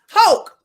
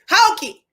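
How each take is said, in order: First: The name is one syllable rhyming with stroke. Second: The name ends with a sounded second syllable. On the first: The speaker calls it right. "hope like stroke" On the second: The speaker calls it wrong. "is there an emphasis with the e"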